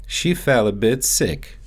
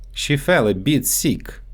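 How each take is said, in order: First: Said in the usual way. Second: Sick said as "seek" with a long ee; Russian-accented "sick" stretched to seek. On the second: Shown as a demonstration. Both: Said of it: "so they often get mixed up in English".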